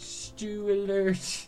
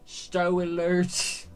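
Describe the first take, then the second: First: The first word's vowel sounds like 'stew'. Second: The first word's vowel sounds like 'stow'. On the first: The speaker calls it wrong. "They don't say stew instead of stay" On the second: The speaker calls it right. "It's stow"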